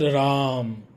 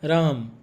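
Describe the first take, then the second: First: The vowel opens out and carries on past m. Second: The vowel is short and closed off by m. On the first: The speaker calls it wrong. "not Ram, Ram" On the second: The speaker calls it right. "So it will be Ram, Ram"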